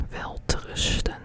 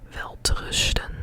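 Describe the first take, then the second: Both takes have the same delivery.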